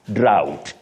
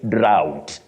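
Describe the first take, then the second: The two takes are said the same way.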